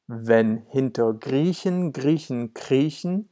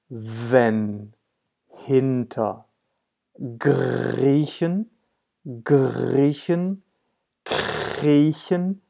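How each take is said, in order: First: It is spoken at a normal, fluent speed. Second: It is spoken very slowly, word by word. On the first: "now this is how it sounds in German" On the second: "Even slower"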